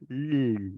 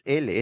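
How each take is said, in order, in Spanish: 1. Solo se produce el sonido de la consonante, sin vocal. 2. Se pronuncia el nombre completo de la letra, con vocal. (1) "es L" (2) "no es L"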